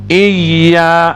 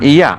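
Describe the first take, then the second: First: The y sound is doubled and held firmly. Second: The y sound is single and light. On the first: The speaker calls it right. "dia kena tegas" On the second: The speaker calls it wrong. "jangan iya"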